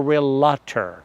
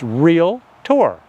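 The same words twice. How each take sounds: First: The word has an extra middle syllable. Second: The word has no extra middle syllable. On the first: The speaker calls it wrong. "They're saying their name wrong" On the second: The speaker calls it right. "No, it's realtor"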